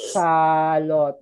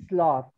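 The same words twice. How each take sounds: First: "salot" as two drawn-out syllables, sa-lot; wrong pronunciation. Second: "sloth" in one syllable; correct pronunciation. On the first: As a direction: stretch out "salot" with an extra vowel after the S. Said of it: "This is only one syllable". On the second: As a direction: run S straight into L in "sloth". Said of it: "so you say sloth". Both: Shown as a demonstration.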